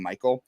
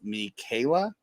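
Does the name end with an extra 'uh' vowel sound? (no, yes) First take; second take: no; yes. First: The name ends without a final vowel sound. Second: The name ends with a final 'uh' vowel. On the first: The speaker calls it wrong. "I pronounced his name Michael" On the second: The speaker calls it right. "it's actually pronounced Michaela"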